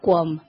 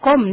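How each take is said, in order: First: The name starts with a 'kw' sound. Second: The name starts with a plain 'k' sound. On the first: The speaker calls it wrong. "no Cuom" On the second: The speaker calls it right. "se pronuncia Com"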